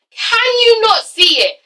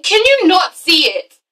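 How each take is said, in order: First: Slow, high-pitched cry of disbelief; escalating exasperation. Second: Slow, raised-pitch incredulous question; exasperated plea. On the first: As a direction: push the question high and slow. Pleading with Amber, repeated more intensely. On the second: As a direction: spell it out slowly to a friend in denial. Pleading with Amber, first take. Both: Acted.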